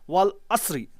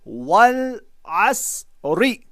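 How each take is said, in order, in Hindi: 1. आखिरी अक्षर एक ही सांस में जोड़कर बोले जाते हैं। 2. आखिरी अक्षर अलग बोला जाता है, एक विराम के बाद। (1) "ऐसा नहीं पढ़ेंगे आप" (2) "बल्कि वो अलग पढ़ा जाएगा कुछ इस तरीके से।"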